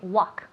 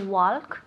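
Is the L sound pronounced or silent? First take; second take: silent; pronounced. First: The L sound is left silent. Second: The L sound is clearly pronounced. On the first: The speaker calls it right. "So we want to say walk" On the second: The speaker calls it wrong. "we don't say walk, nunca"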